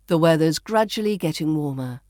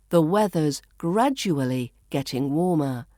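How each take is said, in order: First: Connected reading with "gradually" as GRAD-juh-lee; "gradually" shortened, flowing straight on; reduced pronunciation. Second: Careful, spaced reading with "gradually" as GRAD-joo-uh-lee; "gradually" carefully said in full; full pronunciation. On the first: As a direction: run it together, "gradually" in three syllables. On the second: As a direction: give "gradually" four syllables, set apart by pauses. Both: Shown as a demonstration. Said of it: "which we reduce to".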